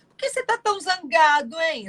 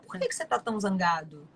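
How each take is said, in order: First: It is said in an ironic tone. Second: It is said in a calm, assertive tone.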